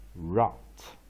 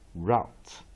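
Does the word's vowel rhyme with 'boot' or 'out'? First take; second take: out; out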